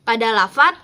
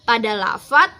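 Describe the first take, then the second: Both takes have the same delivery.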